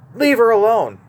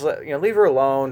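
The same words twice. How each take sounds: First: It is said loudly in a stern tone. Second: It is said in a mild, easygoing tone. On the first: It is a sharp rebuke. "He yelled it. He was stern" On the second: It is a casual, soft objection. "I don't see Jesus sitting there saying something like, "Oh, come on, Judas"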